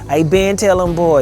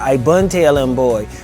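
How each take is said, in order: First: The second word is said like 'ben'. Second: The second word is said like 'bun'. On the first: "instead of" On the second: "depending on the region you're in, ben for B E E N may sound like bun"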